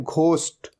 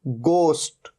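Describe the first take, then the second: First: घोस्ट said with a breathy aspirated gh at the start; wrong aspirated gh. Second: गोस्ट with a clean plain g, no h sound; correct plain g. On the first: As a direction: demo the mistake: घोस्ट with a heavy gh. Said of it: "ये घोस्ट नहीं होता". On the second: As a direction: show the right way: गोस्ट starting with a hard g. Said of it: "ये क्या है?". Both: Shown as a demonstration.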